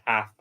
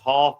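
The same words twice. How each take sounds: First: The word has an American accent. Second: The word has an English accent. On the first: "half American using the American pronunciation" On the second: "half English using the m- English pronunciation"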